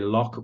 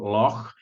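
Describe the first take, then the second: First: The word is said the typical English way. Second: The word is said the local, native way. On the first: The speaker calls it wrong. "You say Loch most of the time" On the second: The speaker calls it right. "do the pronunciation Loch"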